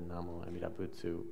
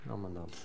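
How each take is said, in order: First: The phrase is said clearly with every syllable. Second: The phrase is mumbled in a short, blurred form.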